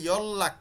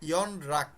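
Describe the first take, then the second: First: The middle consonant sounds like a double l. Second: The middle consonant sounds like n then r. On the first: The speaker calls it right. "লয়ের মতো উচ্চারিত হবে" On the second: The speaker calls it wrong. "নট"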